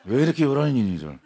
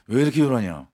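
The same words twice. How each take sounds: First: Stern teacher line breaking into laughter; laughing through the line. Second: Stern teacher. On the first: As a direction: try to stay stern but laugh. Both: Retold or imitated. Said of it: "단호하게 말씀하셨어요".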